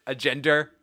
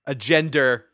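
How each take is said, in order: First: Said in the usual way. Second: Boston accent on gender. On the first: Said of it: "I told you". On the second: Real, not acted. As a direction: gender said Boston style, no final r. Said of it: "Did I do it again?".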